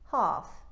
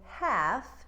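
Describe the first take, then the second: First: The vowel is a broad ah, New Zealand style. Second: The vowel is a short flat a.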